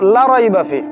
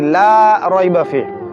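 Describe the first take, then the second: First: The vowel in 'la' is kept short. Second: The vowel in 'la' is drawn out long. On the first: There is certainly doubt in this book. The speaker calls it wrong. "যদি টান না দেই" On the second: There is no doubt in this book. The speaker calls it right. "আমি লাই কিন্তু টান দিছি"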